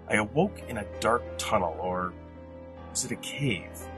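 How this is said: It is read with rhythm, pauses and inflection.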